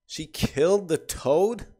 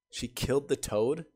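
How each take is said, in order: First: Higher, louder, slow and incredulous; can't believe what he just read; real shock over the toad; stunned disbelief. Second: Said in the usual way. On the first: Real, not acted.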